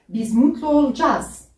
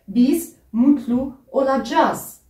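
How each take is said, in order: First: The last word is shortened in casual speech. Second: Every syllable is pronounced fully and carefully. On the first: This is how people say it in everyday life. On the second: This is the written form.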